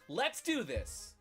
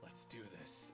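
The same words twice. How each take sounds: First: It is said in a higher voice. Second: It is said in a much deeper voice.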